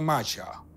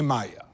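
First: The middle consonant is a ch sound. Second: The middle consonant is a y sound. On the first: The speaker calls it right. "Po hiszpańsku wymawia się to Macia" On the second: The speaker calls it wrong. "nie Maja"

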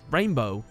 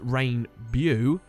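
First: It sounds exactly like the everyday word rainbow. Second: It sounds different from the everyday word rainbow. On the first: The speaker calls it right. "the correct pronunciation of Rainbow is" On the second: The speaker calls it wrong. "some people pronounce this name as"

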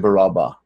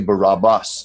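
First: The name is said the Hebrew way. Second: The name is said the common English way. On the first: The speaker calls it right. "That's the Hebrew way of saying it" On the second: The speaker calls it wrong. "They do not say Barabbas"

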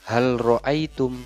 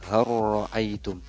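First: The l is pronounced before the r. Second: The l merges into a doubled r. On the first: The speaker calls it wrong. "jangan hal" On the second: The speaker calls it right. "dibacanya har ra'aitum"

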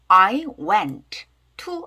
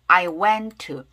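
First: The t of went is pronounced clearly. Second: The t of went is dropped and linked. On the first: The speaker calls it wrong. "I went to 하지 마시고" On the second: The speaker calls it right. "연결되면 이렇게 연음이 돼서 앞에 t는 약하게 발음이 안 난다"

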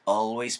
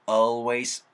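First: The word is said in a relaxed, easy way. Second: The word is said with too much force. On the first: The speaker calls it right. "always 편하게 가시면 돼요" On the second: The speaker calls it wrong. "너무 always 하지 말고"

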